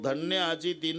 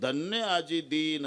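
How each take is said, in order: First: The vowel in 'din' is short. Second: The vowel in 'din' is long. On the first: Today is a blessed day. "आजचा दिवस धन्य" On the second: Today the poor one is blessed. "आजचा गरीब धन्य"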